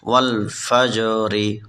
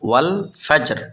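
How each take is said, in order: First: The word ends with an i vowel after r. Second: The word ends on r with no vowel. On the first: The recitation continues without stopping. "রাজের রি" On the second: The reciter stops at this word. "অক্ফ করলে ওয়াল ফাজর"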